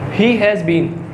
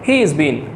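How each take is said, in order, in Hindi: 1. शब्द 'has' पूरा बोला जाता है, एक पूरे शब्दांश की तरह। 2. शब्द 'has' सिकुड़कर छोटी s ध्वनि बन जाता है। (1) "वो इसको पूरा कंप्लीट नहीं बोलते" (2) "वो शॉर्ट कॉन्ट्रैक्शन यूज़ करते हैं"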